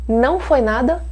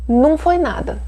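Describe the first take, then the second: First: The first word is the full form não. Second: The first word is the reduced form num. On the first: "As duas formas a gente usa" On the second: "As duas formas a gente usa"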